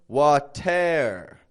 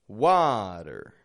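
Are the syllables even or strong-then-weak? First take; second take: even; strong-weak. First: Both syllables are stretched out evenly. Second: A strong first syllable, then a weak one. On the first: The speaker calls it wrong. "I'm not stretching out the whole word" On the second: The speaker calls it right. "I'm just breaking it up"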